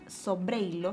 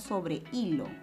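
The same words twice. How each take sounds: First: The e and i are joined in one syllable. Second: The e and i are split, stress on i. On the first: The speaker calls it wrong. "no es sobre hilo" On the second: The speaker calls it right. "la vocal cerrada y la vocal abierta se separan"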